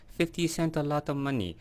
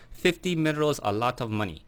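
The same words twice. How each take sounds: First: A quieter fake Hong Kong accent. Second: Hong Kong accent. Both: Shown as a demonstration. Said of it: "my Kanto fake Hong Kong accent".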